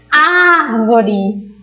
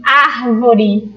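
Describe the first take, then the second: First: Árvore with the first syllable AR drawn out long; calling out the word. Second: Said in the usual way. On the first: Shown as a demonstration. Teacher helping pupils find the tônica, calling Árvore with long AR. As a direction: call Árvore, stretching its stressed AR. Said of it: "falar sempre chamando aquela palavra".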